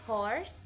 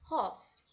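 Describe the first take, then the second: First: An American accent, with the R sounded. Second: A British accent, with the R silent. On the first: "no inglês americano, se a gente fosse pronunciar horse" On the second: "No inglês britânico seria pronunciado como horse"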